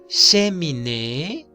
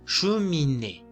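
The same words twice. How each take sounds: First: The first vowel is a clear 'eh' sound. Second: The first vowel is a rounded 'uh' sound. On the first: The speaker calls it wrong. "está mal" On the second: The speaker calls it right.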